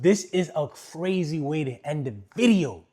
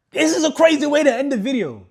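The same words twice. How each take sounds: First: Loud, emphatic amazement; real excitement, pushed louder; excited. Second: Very high, very loud shout; full-out high-pitched holler; excited yell. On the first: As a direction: announce it with raised, excited energy. Excited, first of two takes. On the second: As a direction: yell it out in amazement. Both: Real, not acted.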